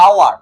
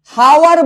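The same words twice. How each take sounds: First: "আওয়ার" opening on the vowel, no h; silent H. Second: "হাওয়ার" with a clear h, said loudly; H sounded. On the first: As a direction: leave the h off "আওয়ার". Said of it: "আমরা কি বলি". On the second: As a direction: hit an audible h at the start of "হাওয়ার". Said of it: "হাওয়ার বলি না". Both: Shown as a demonstration.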